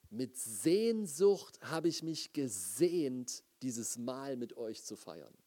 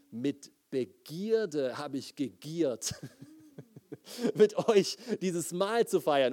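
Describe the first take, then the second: First: Quoting Jesus. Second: Slow start breaking into a laugh, ending louder; laughing paraphrase. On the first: Retold or imitated. Pastor quoting Jesus at the Last Supper, slow and reverent. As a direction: speak it slowly and gently, like holy words. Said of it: "Und er sagt dort". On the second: Shown as a demonstration. Pastor rewording the verse for the congregation, laughing. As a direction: say the blunt rewording half-laughing at its boldness. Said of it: "um dir das klar zu machen".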